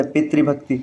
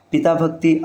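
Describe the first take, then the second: First: पितृभक्ति with "pitri"; correct form. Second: पिता भक्ति with "pitaa"; wrong form. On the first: Teacher giving the correct form, "tri" in पितृभक्ति. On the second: Teacher citing the rejected form, "taa" in पिता भक्ति. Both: Shown as a demonstration. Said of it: "अशुद्ध है".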